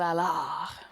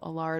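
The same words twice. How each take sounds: First: The name is said with a strong French accent. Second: The name is said with a light French accent. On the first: "If you want to go super French" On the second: "most people just say"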